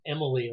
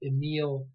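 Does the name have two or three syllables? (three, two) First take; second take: three; two. First: The name is said with three syllables. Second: The name is said with two syllables. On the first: The speaker calls it wrong. "You might hear it pronounced Emily, like he's a woman" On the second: The speaker calls it right. "who's pronounced Emile Durkheim"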